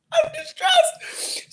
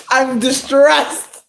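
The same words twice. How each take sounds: First: Very high crying squeal; mock crying wail. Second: High, slow mock distress; hammed-up despair, drawn out. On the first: Vlogger mocking her own despair over cake prices, fake sobbing wail. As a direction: wail it like a hammed-up sob. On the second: Vlogger telling viewers about cake prices, hammed-up despair.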